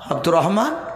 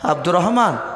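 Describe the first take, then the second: The two takes are said the same way.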